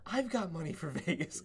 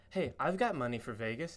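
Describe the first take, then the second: First: Higher-pitched retold echo, laughing through it; playful higher quote of a friend; friend's eager echo. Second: Said in the usual way. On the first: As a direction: echo the line back higher, amused. Retelling friend's matching line.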